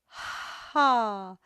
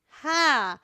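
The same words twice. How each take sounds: First: It is a relaxed, breathy ha driven by air. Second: It is a tight, tense ha pushed from the throat. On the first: The speaker calls it right. "utilizing that breath to create the H breath" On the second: The speaker calls it wrong. "creating a ha from your neck, you're going to feel a lot more tension"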